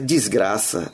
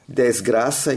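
First: The first vowel is an emphasized 'i' sound. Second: The first vowel is said plainly, unemphasized. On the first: The modern slang use of the word. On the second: The old forbidden word.

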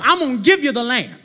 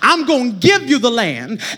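First: It is said at a quicker pace. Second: It is said slowly and deliberately.

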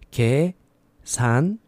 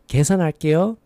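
First: It is said slowly. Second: It is said fast.

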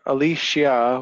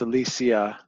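First: The middle consonant is a sh sound. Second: The middle consonant is not a sh sound.

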